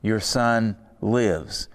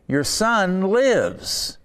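First: Quiet solemn echo. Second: High, slow, ringing cry of good news; joyful exclamation. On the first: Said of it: "Jesus said to him". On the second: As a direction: announce it like wonderful news. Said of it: "exclamation point". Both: Retold or imitated.

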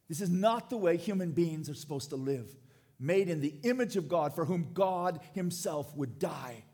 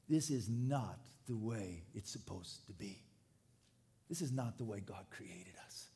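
First: Louder, forceful preacher's protest; impassioned lament. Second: Low, subdued grief, growing softer; hushed lament. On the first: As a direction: drive the lament home with force. Same lament repeated at full force. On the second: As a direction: lament it quietly, as a mourning prophet would. Voices the prophet's grief, then builds. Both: Acted.

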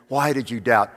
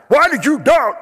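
First: Said in the usual way. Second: Much higher, much louder scolding Jesus; Jesus scolding Peter harshly. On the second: Acted. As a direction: rebuke him sharply. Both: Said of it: "how do you picture Jesus saying".

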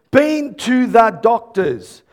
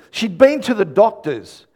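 First: "Been to the doctors" slow, word by word; deliberate, slowed-down "doctors"; emphatic repeat. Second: Said in the usual way. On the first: Real, not acted. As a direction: stretch out "been to the doctors" for weight.

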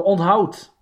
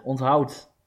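First: Loud announcing. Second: Said in the usual way. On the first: Shown as a demonstration. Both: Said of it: "leerzame quote voor alle luisterkindjes".

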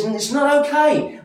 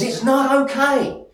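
First: Much higher and louder, God flatly refusing; God's firm declaration. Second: A much higher, louder, slower "It's not okay" as God's voice; God's firm declaration. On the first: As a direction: proclaim it high and strong as God. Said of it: "He says". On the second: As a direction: voice God rising high and firm, pressing each word. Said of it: "God looks at this and says". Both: Acted.

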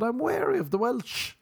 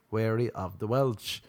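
First: High-pitched, insistent defence; exaggerated wariness. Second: Said in the usual way. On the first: Arguing back that not all Welsh people are bad, high wary protest. Acted protest in imagined argument.

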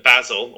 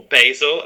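First: Said in the usual way. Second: "basil" the American way, BAY-zil; "basil" with American BAY in the first syllable; American pronunciation. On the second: Shown as a demonstration. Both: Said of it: "as Americans call it".

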